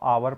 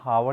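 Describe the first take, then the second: First: The word starts with a vowel sound. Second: The word starts with an h sound. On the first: The speaker calls it right. "एच silent है, इसको आवर पढ़ रहे हैं" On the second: The speaker calls it wrong. "एच को मगर हम हावर नहीं पढ़ रहे हैं"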